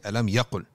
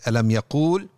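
First: The second word has a short u vowel. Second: The second word has a long oo vowel. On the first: The speaker calls it right. "We say" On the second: The speaker calls it wrong. "So we don't say"

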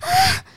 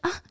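First: It is a loud, exaggerated moan. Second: It is a quiet, natural moan.

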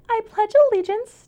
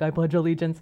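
First: The voice is pushed higher. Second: The voice is very deep. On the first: The natural voice is being hidden. "I would purposely be like" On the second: This is the natural voice. "my super deep voice"

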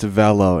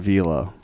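First: The name rhymes with Jello. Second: The name does not rhyme with Jello. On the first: The speaker calls it right. "it's Velo" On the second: The speaker calls it wrong. "it's not Velo"

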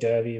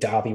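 First: It is said in the Western Australian way. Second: It is said in the Victorian way. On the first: "the Western Australian way" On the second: "the real Victorian way"

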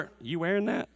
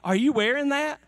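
First: The question sounds doubtful and critical. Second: The question sounds impressed and approving. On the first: The speaker dislikes the outfit. The speaker calls it wrong. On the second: The speaker likes the outfit. The speaker calls it right. "there's one way you could say, are you wearing that? Like, yeah, that's awesome"

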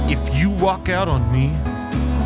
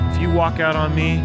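First: It is said in a creepy tone. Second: It is said in a sweet tone. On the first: It is a threatening line. "Or you can do it like this" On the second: It is a harmless love line. "You can go"

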